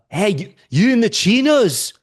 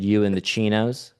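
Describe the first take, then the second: First: High, loud mock call-out; imitated heckler. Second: Said in the usual way. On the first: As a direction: call out like a rowdy stranger. Drunk stranger calls out in story.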